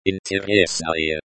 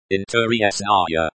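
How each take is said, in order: First: "Interesae" said the Russian way, in-tye-RYES-na-ya; Russian pronunciation. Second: "Interesae" in English sounds, in-tuh-ree-ES-na-ya; anglicized pronunciation. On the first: Language teacher showing learners the pronunciation, Russian "Interesae". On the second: Language teacher showing learners the pronunciation, anglicized "Interesae". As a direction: read "Interesae" like an English transliteration. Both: Shown as a demonstration.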